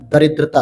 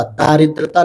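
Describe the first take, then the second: First: दरिद्रता with a short first a, da-rid-ra-ta; correct form said. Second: दारिद्रता with a long first aa, daa-rid-ra-ta; wrong form said. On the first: Teacher to students repeating the right word, short da in दरिद्रता. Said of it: "दरिद्रता होता है". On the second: Teacher to students showing the wrong word, long daa in दारिद्रता. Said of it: "नहीं". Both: Shown as a demonstration.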